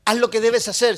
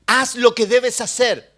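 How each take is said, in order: First: "Haz lo que debes hacer" at normal pace, stress on "debes", loud; punchy repeat. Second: Slow, every word of "haz lo que debes hacer" weighed, loud; slow emphatic command. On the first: Pastor repeats the command to the flock, punch on "debes". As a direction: snap the repeat with weight on "debes". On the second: Pastor drives the command home to the congregation, slow and loud. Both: Acted. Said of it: "repeated exhortation".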